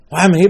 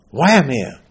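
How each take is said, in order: First: Louder and higher on "here"; emphatic repeat. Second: Said in the usual way. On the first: Acted. Preacher pressing his listeners, repeating it emphatically. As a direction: drive the question home, punching "here".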